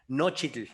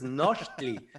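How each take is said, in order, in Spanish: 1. El nombre termina con un sonido 'itl'. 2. El nombre termina con un sonido 'tli'. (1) "en el evento le decía Nochitl, y ya después él me corrigió" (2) "Es Nochtli"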